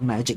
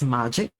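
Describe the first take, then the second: First: The first syllable has an English 'ma' sound. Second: The first syllable is a Japanese-style 'ma'. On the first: "it's not magic" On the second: "Pronounced ma as it would be in Japanese"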